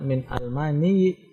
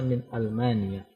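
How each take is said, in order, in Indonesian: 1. Kata itu berakhir dengan bunyi i. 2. Kata itu berakhir dengan bunyi a. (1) "tidak min Almani karena huruf akhirnya bukan ya tapi a" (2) "sehingga tetap dibaca min Almania"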